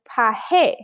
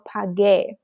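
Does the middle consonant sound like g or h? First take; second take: h; g. First: The middle consonant sounds like an h. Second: The middle consonant is a hard g. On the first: The speaker calls it wrong. "the g sounds like an h. Pahe just sounds weird" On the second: The speaker calls it right. "We need that g sound"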